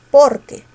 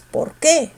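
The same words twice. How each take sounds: First: "Porque" con fuerza en "por", más fuerte; stress on POR. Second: "por qué" con la fuerza en "qué"; acentúa "qué" separado; stress on QUÉ. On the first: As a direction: di "Porque" junto, peso en "por". ("Porque" con fuerza en "por") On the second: ("por qué" con fuerza en "qué") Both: Shown as a demonstration. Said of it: "¿Cómo se pronuncia?".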